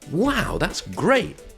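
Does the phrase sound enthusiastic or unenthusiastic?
enthusiastic. It sounds positive, with stress on wow and great. The speaker is genuinely pleased. "the meaning is very positive because I'm stressing wow and I'm stressing great"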